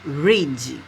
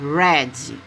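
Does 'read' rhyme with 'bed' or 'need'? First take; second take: need; bed. First: Read is said with its present-tense sound. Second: Read is said with its past-tense sound. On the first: The verb stays in its base form. "A escrita ficou igual, mas a pronúncia é diferente, ó, voltou para o presente" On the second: The action is in the past. "Eu tenho que conjugar esse verbo no passado... na parte, né, é, da fonética, que ele muda"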